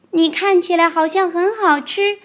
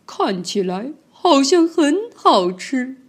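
First: 高高的童声，"看"字上扬，天真地复述; 小孩天真复述"你看起来好像很好吃"; 宝宝学霸王龙的话. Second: 慢悠悠、阴险，"像"字上扬; 不怀好意地打量猎物"看起来好像很好吃"; 贪婪的吉兰泰龙. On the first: Retold or imitated. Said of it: "你说". (童声天真地复述这句话) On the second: Acted. 吉兰泰龙盯着猎物. (慢而阴险地说这句话)

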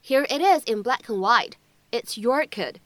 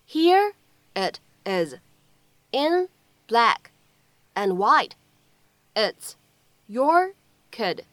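First: Said in the usual way. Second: Word by word. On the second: Shown as a demonstration. Model sentence broken up for learners.

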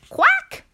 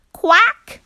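First: Very high squeaky quack; a shrill duck reply. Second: High, loud duck quack; a squawked duck reply. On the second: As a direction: quack back sharply like a duck. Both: A narrator's reading. Duck answers farmer.

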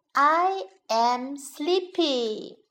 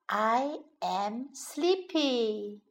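First: Said in the usual way. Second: Slow, softer, drowsy "sleepy". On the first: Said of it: "teacher demos sentence". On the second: Shown as a demonstration. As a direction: say "I am sleepy" as if nodding off.

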